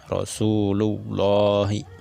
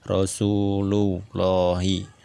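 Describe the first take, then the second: The two takes are said the same way.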